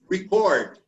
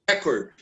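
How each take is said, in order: First: The stress is on the second syllable. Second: The stress is on the first syllable. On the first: It is used as a verb. "the verb receives the stress in the second syllable" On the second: It is used as a noun. "The noun is pronounced always with the first syllable stressed"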